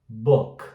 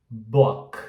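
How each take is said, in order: No difference in how they are said.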